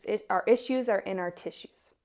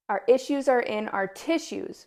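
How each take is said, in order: First: Said in the usual way. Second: Our issues are in our tissues, higher and louder, each word leaned on; emphatic quoted saying. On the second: Shown as a demonstration. Vlogger repeating her yoga teacher's motto, emphatic. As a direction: say the motto out like a mantra. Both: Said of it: "as my yoga teacher trainer always likes to say".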